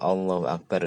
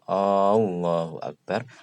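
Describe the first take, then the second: First: The opening vowel is kept short. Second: The opening vowel is drawn out long. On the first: It states that God is the greatest. The speaker calls it right. "itu Allah Maha Besar" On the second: It asks whether God is the greatest. The speaker calls it wrong. "apakah Allah Maha Besar?"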